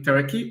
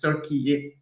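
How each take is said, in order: First: The name is said the familiar English way. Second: The name is said closer to the local form. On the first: The speaker calls it wrong. "I always thought it was gonna be Turkey, but no" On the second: The speaker calls it right. "It's Turkey"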